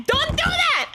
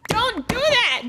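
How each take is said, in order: First: "Don't do that" said again much higher and more insistent; pleading second warning; higher, emphatic repeat. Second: Said in the usual way. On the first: Real, not acted. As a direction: hammer the warning home with a higher pitch. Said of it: "Do not hide in their bedroom". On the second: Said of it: "Do not invade your future loved one's space".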